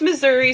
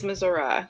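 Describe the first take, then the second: First: It uses the northern regional pronunciation. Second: It uses the southern regional pronunciation. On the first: This is how people in the north of the state say it. "Northern is Missouri" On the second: This is how people in the south of the state say it. "southern is Missouri"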